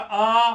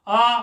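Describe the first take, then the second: First: The vowel is held for two beats. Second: The vowel is held for one short beat.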